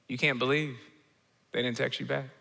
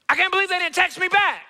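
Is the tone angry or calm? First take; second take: calm; angry. First: It is said in a calm, peaceful tone. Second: It is said in an angry tone.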